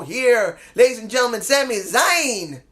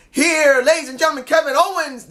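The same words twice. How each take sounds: First: Mock introduction with a long final name; ring announcer. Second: Imitated announcer, pitched up high; high-pitched mock ring introduction. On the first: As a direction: introduce a wrestler, stretching the last name. Corrected imitated ring introduction. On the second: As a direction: call out a wrestler's entrance.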